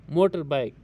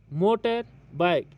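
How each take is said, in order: First: Said in the usual way. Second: motor bike slowly, with a gap between the words; syllable break. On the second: Shown as a demonstration. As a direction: pause after motor, then bike. (Motor bike को धीरे, बीच में रुककर) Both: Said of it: "इसमें भी दो syllable हैं".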